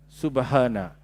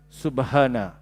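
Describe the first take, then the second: Both takes have the same delivery.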